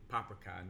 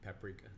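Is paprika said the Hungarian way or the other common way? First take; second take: Hungarian; other. First: The word is pronounced the Hungarian way. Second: The word is pronounced the non-Hungarian way. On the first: The speaker calls it right. "they like to say paprika" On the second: The speaker calls it wrong. "not paprika"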